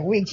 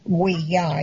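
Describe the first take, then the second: First: The word ends with a 'jee' sound. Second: The word ends with a 'ya' sound. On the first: The speaker calls it right. "you pronounce it Ouija" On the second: The speaker calls it wrong. "you don't pronounce it we ya"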